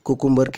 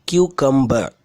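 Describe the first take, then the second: First: The word begins with a plain 'koo' sound. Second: The word begins with a 'kyoo' sound. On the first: The speaker calls it wrong. "இது குக்கும்பர் கிடையாது" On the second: The speaker calls it right. "இதான் இதோட சரியான உச்சரிப்பு"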